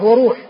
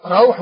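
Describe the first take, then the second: First: وروح said wa-ROOH, pure long u; وروح with rounded u straight after the r; with damma. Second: روح said RAWH, diphthong aw; روح with a short a gliding into w; with fatha. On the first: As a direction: say وروح as wa-ruuh. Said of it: "وروح بضم الر". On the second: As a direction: say روح as rawh, open vowel first. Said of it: "بفتح ال-، الراء وسكون الحاء". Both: Shown as a demonstration.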